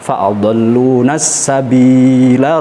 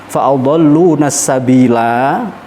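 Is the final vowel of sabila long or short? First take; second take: short; long. First: The final vowel is short, running into next word. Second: The final vowel is held long, then stops. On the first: The reciter continues without stopping. "kalau kita ingin diwasol maka lanya harus pendek" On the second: The reciter stops at this word. "panjang waqaf"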